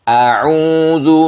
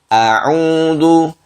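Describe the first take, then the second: Both takes have the same delivery.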